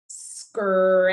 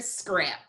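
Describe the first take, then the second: First: "Scrap" stretched long through every sound; long hissed s, drawn-out vowel in "Scrap"; slow sounding out. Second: Said in the usual way. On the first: Shown as a demonstration. Teacher letting students hear all sounds, slowly stretched. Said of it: "need to say it slowly". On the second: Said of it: "now I need to say it slowly".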